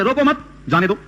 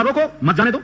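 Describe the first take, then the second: First: Said in the usual way. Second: Teacher shows how a break after مت changes the meaning, with a clear pause. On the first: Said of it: "اگر آپ نے سانس توڑ دیا مت کے اوپر". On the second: Shown as a demonstration. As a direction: say "روکو مت", stop for a breath, then "جانے دو". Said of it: "سانس یہاں توڑ دیا، معنی بدل جائے گا".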